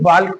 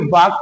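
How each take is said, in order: First: The L sound is pronounced before the K. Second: The L is silent, with no L sound. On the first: The speaker calls it wrong. "और ना ही वाल्क पढ़ा जाएगा" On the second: The speaker calls it right. "बल्कि वाक पढ़ा जाएगा"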